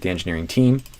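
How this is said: The stress falls on team. It stresses that they are a team. "only be if I needed to emphasize the fact that they're a team"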